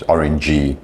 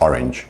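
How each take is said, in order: First: "orangey" with an extra ee on the end; added final vowel. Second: Said in the usual way. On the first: Shown as a demonstration. Teacher showing a common mistake, extra ee in "orangey". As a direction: tack an ee sound onto orange, "orangey". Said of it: "a very common one actually". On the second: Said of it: "instead of".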